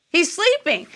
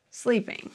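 First: Sleeping punched higher in disbelief; emphatic disbelief. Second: Soft trailing sleeping. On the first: Pastor stressing Jesus slept through storm, incredulous stress. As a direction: hit sleeping like you can't believe it. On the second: Pastor pausing on Jesus asleep, quiet trailing word. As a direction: let sleeping fade out softly. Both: Shown as a demonstration.

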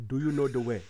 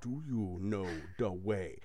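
First: Ugandan Knuckles accent, pushed from the back of the throat; throaty meme accent. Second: Slow, throaty meme accent, softer; Ugandan Knuckles meme accent. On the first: Correcting his own take, throaty Ugandan Knuckles meme accent. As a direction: growl it up from the throat, meme style. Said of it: "Go to get it from the back of the throat". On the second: Coaching a friend on the meme voice, slow throaty Ugandan Knuckles accent. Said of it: "Say it just like". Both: Shown as a demonstration.

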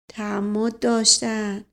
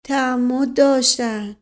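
First: Slow, stifled mutter of accusation; choked-back, deliberate accusation. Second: Slow, louder repeated accusation; emphatic, louder, deliberate accusation; voice starting to rise. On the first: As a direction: say it slowly, held in the throat. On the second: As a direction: insist slowly, letting the voice rise. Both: A narrator's reading.

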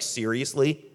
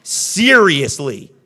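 First: Questioning seriously. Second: Slow, louder exasperated "Seriously?". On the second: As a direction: drag out "Seriously?" in disbelief. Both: Retold or imitated. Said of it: "God's looking at you like".

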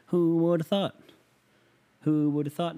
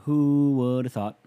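First: Higher, laughing through the words; laughing repeat. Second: Louder and slow, leaning on who; slow emphatic repeat. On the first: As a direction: chuckle out Who would have thought, stretching thought. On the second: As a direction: spell out Who would have thought, stressing who. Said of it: "Who would have thought, man?". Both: Shown as a demonstration.

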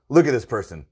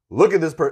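First: Said in the usual way. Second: Repeated higher and louder, cut off. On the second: Retold or imitated. Customer gawking at a bad parker, repeated louder and higher. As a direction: raise it, pitch up and cut off mid-word. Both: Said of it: "And I'd be like".

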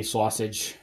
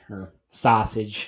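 First: Said in the usual way. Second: Sausage with a slow Brooklyn "sah" vowel; Brooklyn accent. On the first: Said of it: "I overanalyze words and then I say them weird". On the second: Real, not acted. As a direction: say sausage Brooklyn style, slowly. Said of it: "Stop talking like you're from Brook-, Brooklyn".

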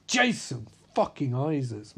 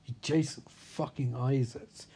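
First: Hyped stress on "Jason"; emphatic name repeat. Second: Said in the usual way. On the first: Retold or imitated. Fishburne hyping up a doubting castmate, emphatic. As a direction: punch "Jason" hard, then "fucking Isaacs".

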